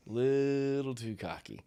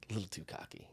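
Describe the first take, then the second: First: Drawn out, a touch higher; slow emphasis. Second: Soft aside. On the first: Shown as a demonstration. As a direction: stretch it out to make the point. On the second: Real, not acted.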